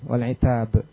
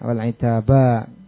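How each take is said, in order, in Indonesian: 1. Suku kata terakhir berakhir dengan konsonan mati. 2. Suku kata terakhir berakhir dengan vokal yang dipanjangkan. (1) "dibacanya kan sukun" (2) "dengan mad wal itaba"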